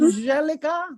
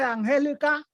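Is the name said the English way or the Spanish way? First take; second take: English; Spanish. First: The name is said with English pronunciation. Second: The name is said with Latin American Spanish pronunciation.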